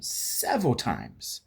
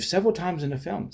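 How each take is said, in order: First: SEVERAL drawn out slowly and stressed; slow, insistent "several times"; emphatic repeat. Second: Said in the usual way. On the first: Real, not acted. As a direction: lean hard on "several", stretching it.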